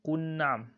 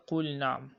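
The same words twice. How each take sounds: First: "qul na'am" run together as qun-na'am; L merged into N. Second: "qul na'am" with the L of qul fully sounded; clear separate L. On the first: Teacher showing a wrong reading, "qul na'am" with L swallowed into N. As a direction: turn the L of "qul" into a doubled N before na'am. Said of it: "do not say qul na'am". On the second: Teacher showing the correct reading, "qul na'am" with a distinct L. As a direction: finish the L in "qul" cleanly, then start na'am. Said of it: "So you say qul na'am". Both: Shown as a demonstration.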